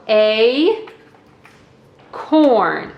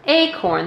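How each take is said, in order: First: A, pause, corn, each syllable said apart; teacher breaks a corn into two beats for kids; split into syllables. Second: Said in the usual way. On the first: Shown as a demonstration. Teacher shows kids the two syllables in a corn, slowly split. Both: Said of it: "there are two syllables".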